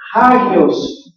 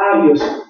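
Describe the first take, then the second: First: The word starts with an h sound. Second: The word starts directly with a vowel. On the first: The speaker calls it right. "debe de ser hagios" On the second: The speaker calls it wrong. "no este, agios"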